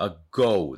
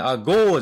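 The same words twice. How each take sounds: First: "ago" with the O gliding into U; correct OU diphthong. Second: "ago" with a long flat "oo", no glide; wrong Japanese-style vowel. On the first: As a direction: say "ago" ending in "oh-oo". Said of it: "おう、おうね". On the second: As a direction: say "ago" as katakana アゴー, louder. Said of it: "agoじゃないんですよ". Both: Shown as a demonstration.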